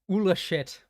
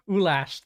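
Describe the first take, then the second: First: The name ends with a 'shit' sound. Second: The name ends with a 'lash' sound. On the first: The speaker calls it wrong. "me saying Ula shit" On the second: The speaker calls it right. "That makes a lot more sense"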